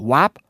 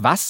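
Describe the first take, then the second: First: The word ends in a p sound. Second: The word ends in an s sound. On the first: The speaker calls it right. "sondern sagst wap" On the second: The speaker calls it wrong. "du sagst ja nicht was"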